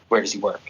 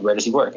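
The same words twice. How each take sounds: First: It is asked in a threatening, menacing way. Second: It is asked in a plain, neutral way.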